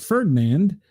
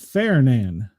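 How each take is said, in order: First: The first syllable does not sound like 'fair'. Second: The first syllable sounds like the word 'fair'. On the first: This is how the speaker reads the name. "I'm reading that as Ferdinand" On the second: This is the official pronunciation of the name. "they're calling it Ferdinand. Fair sounds like Rednecks wrote this"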